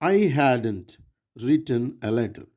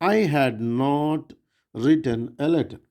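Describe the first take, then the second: First: 'Had not' is contracted into one word. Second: 'Had not' is said as two full words.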